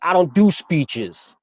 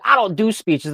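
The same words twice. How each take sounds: First: Slow, drawn-out refusal, a little higher; stubborn refusal. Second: Higher-pitched copy of a stubborn refusal; copycat refusal. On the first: Student refusing the teacher's speech call, stubborn. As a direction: dig in and stretch the words out. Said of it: "I'm like". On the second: Classmates copying the speaker's refusal, mock defiant. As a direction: mimic the defiant kid, pitched up. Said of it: "try to copy me and be like". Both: Retold or imitated.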